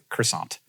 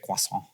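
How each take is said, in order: First: It is said with English sounds. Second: It is said with French sounds. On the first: The borrowed word is adapted to familiar sounds. "you say croissant" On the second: This is the original form in the source language. "you don't say croissant"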